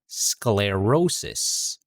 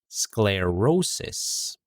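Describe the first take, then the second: No difference in how they are said.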